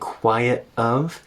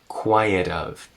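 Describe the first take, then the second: First: The T is a glottal stop before 'of'. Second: The T is a tap linked into 'of'. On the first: Every word is made to sound clear for emphasis. "she uses a glottal stop" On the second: It is ordinary casual American speech. "We make that T into a tap and we connect it to of"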